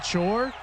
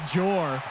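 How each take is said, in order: First: The word starts with a voiceless 'ch' sound. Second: The word starts with a voiced 'j' sound. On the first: The speaker calls it right. "you don't know how to pronounce uh, chore?" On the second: The speaker calls it wrong. "He kept calling it jor"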